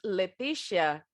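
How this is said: The name is said with an English pronunciation. The name is adapted for English-speaking listeners. "Eu falo do jeito que eles falam o meu nome"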